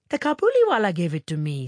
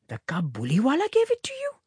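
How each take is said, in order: First: Put-on quick, higher cheerful little girl; cheerful child. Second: Quick, high rising question of a shocked mother; shocked cry. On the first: Minnie answering her mother about the coin, cheerful. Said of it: "said Minnie cheerfully". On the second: Mother hearing where the coin came from, shocked. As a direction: echo it in shock, pitch shooting up. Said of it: "cried her mother, much shocked". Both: A narrator's reading.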